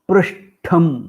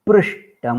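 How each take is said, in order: First: The retroflex t is aspirated, with breath. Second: The retroflex t is unaspirated, without breath. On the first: The speaker calls it right. "अनन्तरम् उच्चारितमस्ति महाप्राणठकारोपेतम्" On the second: The speaker calls it wrong. "प्रथमम् उच्चारितम् अल्पप्राणटकारोपेतम्"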